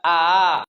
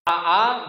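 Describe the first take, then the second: First: The second glottal catch is softened toward a glide. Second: Both vowels start with a full glottal catch.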